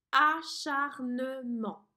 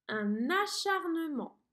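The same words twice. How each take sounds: First: Acharnement split into four slow, louder syllables; very slow dictation. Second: Acharnement stretched slowly, syllable by syllable; dictation slow. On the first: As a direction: hammer out each syllable of Acharnement. (Acharnement détaché en quatre syllabes) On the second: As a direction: dictate the word slowly and clearly. (acharnement dicté lentement) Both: Shown as a demonstration. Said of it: "Quatre syllabes".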